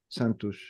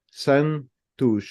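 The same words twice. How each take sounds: First: "Santos" said quickly, last syllable clipped to "tu"; quick "Santos", swallowing the last syllable; natural fast "Santos", short final syllable; fast native way. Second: "Santos" drawn out, every syllable clear, "san-tush"; careful "Santos" with each syllable separated. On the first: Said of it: "But we say it fast". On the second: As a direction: say "Santos" slowly, giving the last syllable full weight. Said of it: "If I had to separate ... into different syllables". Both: Shown as a demonstration.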